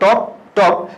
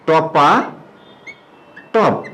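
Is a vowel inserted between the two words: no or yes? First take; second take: no; yes. First: No vowel is added between the two words. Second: An 'a' vowel follows the first word. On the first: "দুটা একসাথে হলে হওয়া উচিত ছিল টপ টপ, সেটা না হয়েছে" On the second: "এই শব্দটাকে যখন আমরা একত্র করে ফেলি তখন এটা হবে টপা টপ"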